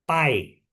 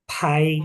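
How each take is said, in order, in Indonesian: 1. Bunyi p-nya polos, tanpa hembusan udara. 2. Bunyi p-nya ada hembusan udara yang kuat. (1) "Kalau misalnya aku kasih B sama A I" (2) "Kalau P sama A I, ya bacanya tambah-tambahin H"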